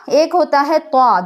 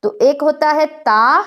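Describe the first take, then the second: First: طا with a heavy, thickened voice; heavy ط sound. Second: Said in the usual way. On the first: Shown as a demonstration. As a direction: say طا full and heavy in the mouth. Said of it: "بھاری کر لینی ہے". (طا کو بھاری آواز سے) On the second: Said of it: "جب طا کو کہا جائے گا تو آواز بھاری کر لینی ہے".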